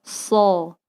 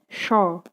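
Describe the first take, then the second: First: The hissing air is pushed out of the mouth. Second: The hissing air stays trapped inside the mouth. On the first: The speaker calls it right. "Harus kita keluarkan" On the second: The speaker calls it wrong. "bukan juga seperti ini. Angin hanya berhembus di dalam mulut"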